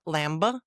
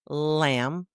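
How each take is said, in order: First: The final B is pronounced. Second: The final B is silent. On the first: The speaker calls it wrong. "not lamba" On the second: The speaker calls it right. "the silent B"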